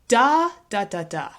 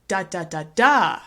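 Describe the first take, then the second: First: The stress is on the first syllable. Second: The stress is on the fourth syllable.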